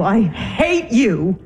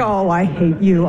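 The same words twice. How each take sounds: First: HATE stretched very long; emphatic loathing. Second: Low, slow loathing; seething anger. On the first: Wife repeating it to husband, stretching HATE furiously. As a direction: lean hard and slowly on HATE. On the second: Wife to husband who ignores her, seething. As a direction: drag out HATE in a low voice. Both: Acted.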